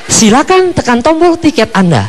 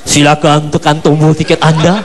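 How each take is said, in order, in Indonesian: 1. Diucapkan dengan suara mesin perempuan yang enak didengar. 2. Diucapkan dengan suara yang tidak enak, parau, dan mengganggu. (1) "Selalu suara perempuan karena enak didengar" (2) "suaranya nggak enak"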